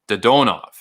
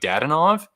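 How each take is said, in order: First: The stress is on the second syllable. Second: The stress is not on the second syllable. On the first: This is how it is said in Russian. "in the Russian language, it's Dodonov" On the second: This is how English speakers naturally say it. "in our tongue, we would naturally say something like Dadonov"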